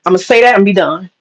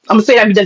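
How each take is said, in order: First: Said in the usual way. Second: Rushed fast, nearly tearful; racing through it before she loses it; fast, on the verge of anger; rushed, getting mad. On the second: Real, not acted. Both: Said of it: "'cause I'm about to get mad".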